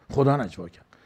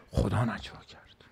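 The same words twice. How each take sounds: First: Said in the usual way. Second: Whispered. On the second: Retold or imitated. Quoting the Prophet on whispering.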